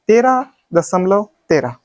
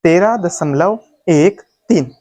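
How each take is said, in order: First: Second तेरह as one whole number; wrong reading demo. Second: Slow, एक, तीन as separate digits; correct reading demo. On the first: Teacher testing students with a mistake, demonstrated wrong reading. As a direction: read the last तेरह as a single number. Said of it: "गलत है?". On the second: Teacher showing the right way, slow digit-by-digit reading. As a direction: space out एक and तीन slowly. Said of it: "इसको सही पढ़ने का तरीका". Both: Shown as a demonstration.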